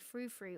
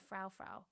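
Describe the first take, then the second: First: The vowel does not sound like German Frau. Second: The vowel sounds like German Frau. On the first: The speaker calls it right. "I don't know if you say Frou Frou or Frau Frau" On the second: The speaker calls it wrong. "I think I want to say Frau because of the German"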